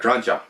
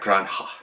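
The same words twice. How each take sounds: First: The middle consonant sounds like an English J. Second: The middle consonant sounds like an English H. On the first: "I just say La Granja because it's a J" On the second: "I've heard it pronounced more like an H"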